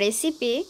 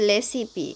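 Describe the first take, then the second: First: The word begins with an R sound. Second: The word begins with an L sound. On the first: This is the English pronunciation. "ইংরেজিতে রেসিপি" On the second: This is how Koreans pronounce it. "কোরিয়ানরা লেসিপি এইটাও উচ্চারণ করে"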